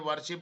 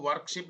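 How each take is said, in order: First: No k sound comes before the 'sh'. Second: A k sound comes before the 'sh'. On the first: The speaker calls it right. "ये वर्शिप होता है" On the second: The speaker calls it wrong. "वर्कशिप नहीं होता है"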